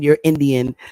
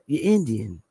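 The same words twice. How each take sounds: First: It is pronounced clearly and carefully. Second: It is said in a Southern accent. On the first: "like clearly pronounce it" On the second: "they had their southern accents"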